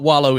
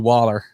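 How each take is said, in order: First: The word ends in an 'oh' sound. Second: The word ends in an 'er' sound. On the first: It is the standard way of saying it. "I'm gonna change my vocabulary" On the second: It is the local regional way of saying it. "how we say wallow down here"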